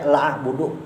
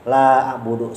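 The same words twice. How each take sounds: First: The first vowel is cut short. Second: The first vowel is held long. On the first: I surely worship. The speaker calls it wrong. "lamnya pendek" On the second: I do not worship. The speaker calls it right. "La panjang"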